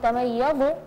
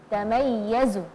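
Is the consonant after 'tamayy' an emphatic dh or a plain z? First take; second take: emphatic dh; plain z. First: The consonant is an emphatic dh sound. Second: The consonant is a plain z sound. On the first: The speaker calls it wrong. "huruf za ya, bukan dha. Jadi bukan tamayyazu" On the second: The speaker calls it right. "huruf za ya"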